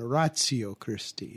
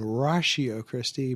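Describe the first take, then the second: First: It is pronounced the Latin way. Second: It is pronounced the American way. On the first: "if you were Latin, you'd be saying ratio Christi" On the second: "If you're American, you should be saying ratio Christi"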